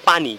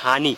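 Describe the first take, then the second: First: The word begins with a P sound. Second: The word begins with an H sound. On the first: This is the standard form. The speaker calls it right. "প্রমিত বাংলা আহ, বা standard বাংলাতে হচ্ছে পানি" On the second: This is a regional form. The speaker calls it wrong. "কিন্তু তারা উচ্চারণ করতেছে হানি"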